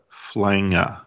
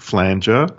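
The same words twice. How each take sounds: First: The word rhymes with banger. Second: The word does not rhyme with banger. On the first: The speaker calls it right. "It sounds like banger" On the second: The speaker calls it wrong. "not Flanger"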